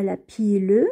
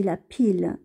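First: La pile said as "pi-leu", final E sounded; wrong pronunciation with final E sounded. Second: La pile said as "pil", the E silent; correct pronunciation with silent E. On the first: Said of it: "on ne prononce pas le E". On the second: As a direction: stop on the L in pile, no vowel after. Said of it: "on dit la pile". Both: Shown as a demonstration.

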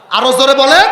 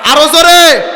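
First: High, loud call to the crowd; urging the crowd. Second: High, loud shout to the crowd; louder call. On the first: Preacher urges the crowd to answer, loud call. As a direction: rouse them to answer louder. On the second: Preacher demands a louder answer from the crowd, shout. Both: Real, not acted.

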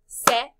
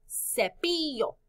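First: "cepillo" in three loud beats, ce, pi, llo; syllable by syllable. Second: Said in the usual way. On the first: Shown as a demonstration. Teacher counts syllables with class, "cepillo" broken in three. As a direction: punch each syllable of "cepillo" on its own. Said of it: "Cuántas sílabas en cepillo". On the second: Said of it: "¿Repites palabra?".

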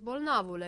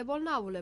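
First: Louder, put-on doctor's question; mock doctor checking on a patient; disguised doctor voice. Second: Loud falling order on bolnavule; commanding. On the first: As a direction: fake a doctor asking the patient. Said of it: "dându-și silința să-și schimbe glasul". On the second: Acted. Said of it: "porunci habar n-am".

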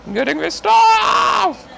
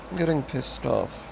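First: Slow, very high scream of frustration; furious shout. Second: Quietly fed up. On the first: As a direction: explode into a drawn-out high yell. Explodes at the game, repeating. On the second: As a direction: say it softly, holding the anger in. Low take before shouted repeat. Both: Real, not acted.

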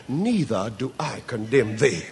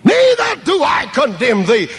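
First: Low, soft words of mercy; gentle pardon. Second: High, loud pulpit proclamation; proclaimed. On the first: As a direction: speak it as quiet forgiveness. Jesus's gentle pardon, then repeated loud. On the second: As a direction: ring it out over the congregation. Same words repeated proclaimed. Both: A narrator's reading.

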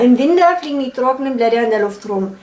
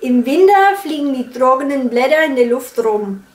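First: Franconian accent. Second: A mild Franconian accent, softened consonants. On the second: (fränkischer Akzent, leicht nachgemacht) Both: Shown as a demonstration. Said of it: "How I would imitate a Franconian accent".

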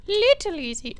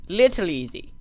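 First: Squeaky, high-pitched repeat; playful high falsetto; falsetto echo. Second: Said in the usual way. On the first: Pretend. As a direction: jump up into a silly high voice. Repeats phrase, second in falsetto.

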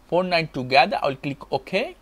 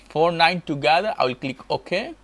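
Both takes have the same delivery.

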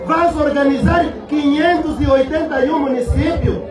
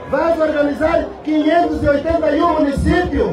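Both takes have the same delivery.

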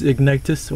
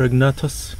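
First: "Ignitus" with an i in the middle; first pronunciation. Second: "Ignatus" with an a in the middle; second pronunciation. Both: Shown as a demonstration. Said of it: "however you pronounce his name".

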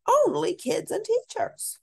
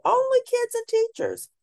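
First: Much higher with rising end; high child voice. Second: Put-on much higher, sing-song kid rule; high child voice. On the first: Acted. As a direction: repeat the rule in the kid's voice again. Child voice repeating the rule. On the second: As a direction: chant it like a bossy little kid.

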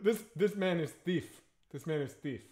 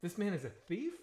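First: Imitated African accent. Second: Put-on "thief" rising into a question, softer and without the accent; questioning echo. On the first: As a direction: put on a local African translator's accent. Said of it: "I'm not gonna do the accent". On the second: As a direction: echo it back, lifting "thief" in disbelief. Crew repeats it in disbelief.

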